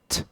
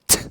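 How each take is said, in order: First: The t sound is said plainly, without extra force. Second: The t sound is punched out with sharp force. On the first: "a T sound is this" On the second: "but if I punch it, it's this"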